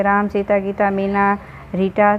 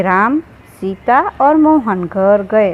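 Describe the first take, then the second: First: Names run together without pauses; rushed list. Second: Slow, a clear pause after "राम" and "सीता"; pauses at commas. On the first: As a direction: rattle the names off with no breaks. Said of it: "जैसे हम ऐसे ही speed में बोल जाएंगे". (नाम बिना रुके जल्दी-जल्दी) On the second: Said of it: "लेकिन हम ऐसे बोलेंगे कि". (अल्पविराम पर रुककर धीरे बोलना) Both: Shown as a demonstration.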